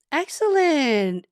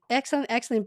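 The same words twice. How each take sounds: First: Slow, high, loud stretched "Excellent"; a long sung-out "Excellent" of delight; drawn-out praise. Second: Said in the usual way. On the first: Real, not acted. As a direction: savour each syllable of "Excellent". Praising viewer, word repeated.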